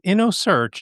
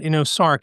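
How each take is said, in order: First: The second part sounds like 'search'. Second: The second part sounds like 'sark'. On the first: The speaker calls it right. "it's InnoSearch" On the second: The speaker calls it wrong. "not InnoSark, as VoiceOver may say"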